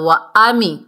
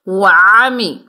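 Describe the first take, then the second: First: The vowel starts with a plain glottal stop. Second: The vowel starts with a throaty ain sound. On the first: The speaker calls it wrong. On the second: The speaker calls it right.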